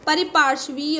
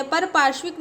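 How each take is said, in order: First: परिपार्श्वीय with 'pari' and a '-veeya' ending; correct pronunciation. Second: परपार्श्विक with no 'i' after par and a '-vik' ending; wrong pronunciation. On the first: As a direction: say परिपार्श्वीय as pari-paarshveeya. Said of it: "होता है". (परिपार्श्वीय में 'परि' और 'वीय' साफ़ बोलें) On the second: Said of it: "नहीं होता है". (परपार्श्विक को 'पर' और 'विक' से बोलें) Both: Shown as a demonstration.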